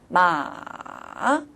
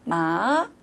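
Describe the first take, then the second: First: The pitch dips low, then rises again. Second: The pitch rises from middle to high. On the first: "레에서 도로 떨어졌다가 도에서 파로 올라가는 거죠" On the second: "중간음이 미에서 솔로 올라가는 거죠"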